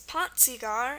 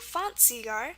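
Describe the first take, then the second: First: The word begins with a p sound. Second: The word begins with an f sound. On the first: "even if it's pronounced like pa" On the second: "the alternate pronunciation"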